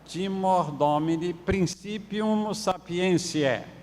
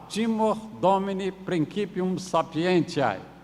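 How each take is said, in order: First: It uses the popular everyday Latin pronunciation. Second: It uses the restored classical Latin pronunciation. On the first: "mas no popular era" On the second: "a forma de falar da, do latim reconstituído"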